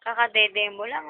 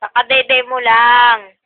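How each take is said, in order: First: Said in the usual way. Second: Loud, emphatic repeat of Kakadede mo lang. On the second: Real, not acted. Repeats loudly to the baby.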